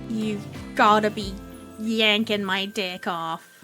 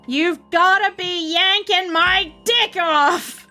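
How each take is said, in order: First: It is said at normal volume. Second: It is said loudly.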